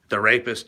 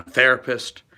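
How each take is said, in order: First: "the rapist" split into two words; pointed split on "the rapist"; therapist as two words. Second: Said in the usual way. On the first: Shown as a demonstration. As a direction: say "the rapist" with a full stress on RAPIST. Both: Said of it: "you know, therapist".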